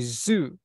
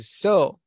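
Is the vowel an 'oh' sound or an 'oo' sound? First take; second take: oo; oh. First: The vowel is an 'oo' sound. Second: The vowel is an 'oh' sound. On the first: The speaker calls it right. "say zoo" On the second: The speaker calls it wrong. "We don't say so"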